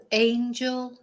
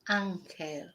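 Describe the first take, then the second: First: "angel" slowly, AYN-jul; stretched English "angel"; English pronunciation. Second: "ángel" the Spanish way, AHN-hel; Spanish "ángel", open A, falling away; Spanish pronunciation. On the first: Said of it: "angel in English". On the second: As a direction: say "ángel" softer, with a throaty h for the g. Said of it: "Whereas in Spanish". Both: Shown as a demonstration.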